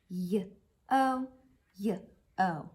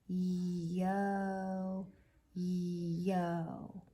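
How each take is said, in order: First: Each sound is followed by a short pause. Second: The sounds are drawn out slowly without breaks. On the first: "say each sound with like a little pause behind it" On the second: "let's try saying yo-yo slow motion"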